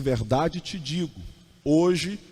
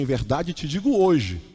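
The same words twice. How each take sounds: First: There is a pause after 'digo', before 'hoje'. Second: There is a pause after 'hoje', not before it. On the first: The promise is for today. The speaker calls it right. "Jesus falou assim" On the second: Only the act of saying happens today. The speaker calls it wrong. "mudar a vírgula de lugar"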